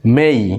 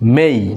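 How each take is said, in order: The two takes are said the same way.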